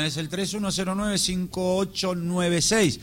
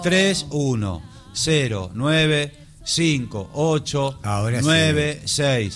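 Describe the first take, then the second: First: The number is said fast. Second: The number is said slowly.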